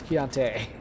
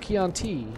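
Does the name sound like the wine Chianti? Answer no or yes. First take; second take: no; yes. First: The name does not sound like the wine. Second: The name sounds like the wine Chianti. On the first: The speaker calls it right. "there's an E on the end" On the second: The speaker calls it wrong. "It's not Chianti"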